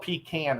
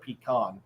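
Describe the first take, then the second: First: The word is said the Southern US way. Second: The word is said a non-Southern US way. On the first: This is how people in the South say it. "they call it pecan" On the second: This is how the speaker would otherwise say it. "instead of pecan"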